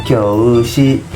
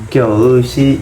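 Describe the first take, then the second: The two takes are said the same way.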